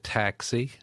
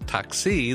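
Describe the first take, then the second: First: The stress is on the first syllable. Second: The stress is on the second syllable. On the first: "she was putting the emphasis on the first syllable" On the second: "but in Greek, it's taxi, the emphasis on the second"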